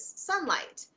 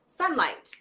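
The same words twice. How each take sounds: First: Sunlight said much higher, with a bright falling tone; a sudden joyful "Sunlight" as the name finally comes back; remembered it. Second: Said in the usual way. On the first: Real, not acted. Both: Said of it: "There it is".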